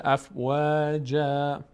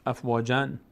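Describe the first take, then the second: First: Slow chanted "افواجا", long final a; tanween becomes alef. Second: "افواجن" ending on a clear n; continuing tanween. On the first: Teacher stopping on the word, alef replacing tanween. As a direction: stretch "افواجا" to end on open a, no n. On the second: Teacher showing continued recitation, final n sounded. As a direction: finish "افواجن" with -an, ready to link on. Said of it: "اگه ادامه دادیم". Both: Shown as a demonstration.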